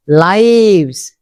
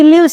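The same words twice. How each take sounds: First: The vowel is long, rhyming with knives. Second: The vowel is short, rhyming with gives. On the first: It is the plural of life. "This is noun plural" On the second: It is the action of living somewhere. "Here this is a verb"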